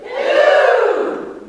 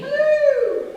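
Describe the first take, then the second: First: Higher, louder operatic hello; cultured back placement. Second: Much higher, louder called hello; bright forward hello. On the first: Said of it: "it's back further". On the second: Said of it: "let's play this game". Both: Shown as a demonstration.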